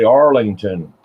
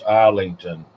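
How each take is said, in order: First: The name begins with an 'Arl' sound. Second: The name begins with an 'Island' sound. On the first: The speaker calls it wrong. "I want to say Arlington" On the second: The speaker calls it right. "That's how you say it roundabout"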